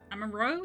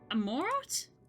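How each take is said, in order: First: The name is said with a French pronunciation. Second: The name is said with a plain English pronunciation.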